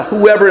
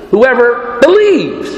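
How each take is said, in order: First: "whoever" stressed as the key word. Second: Slow, believes weighted most; stress on believes. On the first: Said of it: "the emphasis is on the". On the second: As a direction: lean on "believes." not on "whoever". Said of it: "putting the emphasis on the wrong words". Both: Shown as a demonstration.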